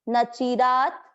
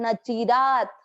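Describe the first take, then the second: No difference in how they are said.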